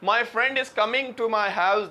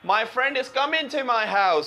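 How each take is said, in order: First: The g at the end of 'coming' is pronounced. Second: The g at the end of 'coming' is dropped. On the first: "देखिए मैं अभी जी बोलता हूं पहले" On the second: "अब देखें जी silent होगा, ब्रिटिश कैसे साइलेंट करते हैं"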